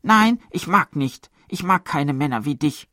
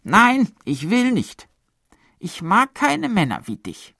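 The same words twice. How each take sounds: First: High, loud pouting woman's refusal; cold voice. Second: Cold refusal. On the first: Matron mimicking a woman rejecting a man, cold. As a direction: wave him off coldly. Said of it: "mit kalter Stimme". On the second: Woman refusing the pleading man, cold and high. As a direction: push him away coldly. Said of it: "eine raue Stimme". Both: A narrator's reading.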